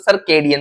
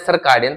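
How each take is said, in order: First: The second syllable has an 'ay' vowel. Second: The second syllable has an 'ah' vowel. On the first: The speaker calls it right. "ये तो सर्केडियन बोलते हैं" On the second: The speaker calls it wrong. "पिछली पिछली class में सर्काडियन बोल रहा था मैं"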